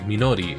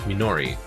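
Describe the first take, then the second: First: It is said with Japanese-style pronunciation. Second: It is said with casual English pronunciation. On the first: "instead of pronouncing Minori like Minori" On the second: "If you pronounce them casually in English conversation"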